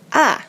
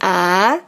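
First: The pitch falls sharply from high to low. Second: The pitch rises from low to high. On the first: "Yang keempat adalah dari kiri atas ke kanan bawah ya" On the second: "yang kedua itu kan dari bawah ke atas ya"

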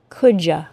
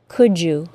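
First: You is reduced to a casual ya. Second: The d and y blend into j. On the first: "as an informal contraction" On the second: "with the assimilated CH sound and J sound"

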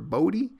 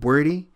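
First: The first vowel sounds like 'oh'. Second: The first vowel sounds like 'or'. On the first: The speaker calls it wrong. "it looks like it says Bowdy" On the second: The speaker calls it right. "but it's pronounced Bordy"

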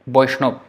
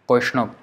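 First: It starts with B and ends in ob. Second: It starts with B and ends in ob.

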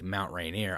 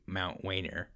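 First: The R sound is said clearly. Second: The R sound is replaced by another sound. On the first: This is how the word should be said. The speaker calls it right. "instead of saying like Mount Rainier" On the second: This is how a speech impediment made it sound. The speaker calls it wrong. "I would say Mount Wainer"

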